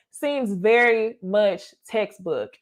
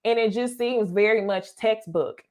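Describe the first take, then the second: First: Slow with very leaned on hard; stress on very. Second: Said in the usual way. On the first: Shown as a demonstration. Repeating her verdict on him to viewers, slow, stressing very. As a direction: drag it out, hitting "very".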